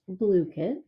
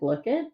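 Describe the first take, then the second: First: The first part sounds like 'blue', with a long vowel. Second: The first part sounds like 'blook', as in 'book'. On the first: The speaker calls it right. "but it is pronounced BlueKit" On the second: The speaker calls it wrong. "I've been calling it Blookit"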